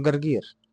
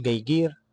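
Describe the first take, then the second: First: جرجير with both ر rolled clearly; correct pronunciation. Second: جيجير, the ر dropped and replaced with ي, said slowly; lisped r. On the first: Coach showing the exam's correct r, rolled clearly. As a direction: say جرجير with a clean trilled r each time. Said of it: "لازم تقول جرجير". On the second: Coach imitating a recruit's r lisp, slow. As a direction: say جرجير as جيجير, no r at all. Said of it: "لو قلت جيجير هيأثر". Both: Shown as a demonstration.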